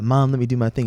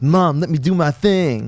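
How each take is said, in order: First: It is said plainly, without much attitude. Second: It is said turned up, with cool attitude.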